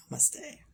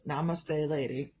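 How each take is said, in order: First: Namaste whispered high, rising, the first syllable dropped, like "no Misty". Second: Said in the usual way. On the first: Shown as a demonstration. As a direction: breathe Namaste so it sounds like "no Misty". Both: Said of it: "It almost sounds like no Misty".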